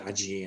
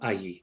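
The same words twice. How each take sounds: First: It is said with a Latin American pronunciation. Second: It is said with a non-Latin American pronunciation. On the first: "You'd certainly hear allí in Latin America" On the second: "but allí"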